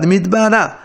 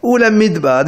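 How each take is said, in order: First: Midbara said with a final a; he ending added. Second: Said in the usual way. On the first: Shown as a demonstration. Teacher shows the direction form, Midbara. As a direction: say Midbara, ending the word on a clear a. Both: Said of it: "he à la fin".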